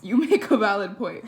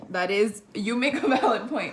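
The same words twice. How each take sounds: First: Loud, laughing out the line; laughing harder. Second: Louder, laughing through the words. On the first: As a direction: repeat it while cracking up even more. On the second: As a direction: concede the point while cracking up. Laughing, conceding to roommate's joke. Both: Real, not acted.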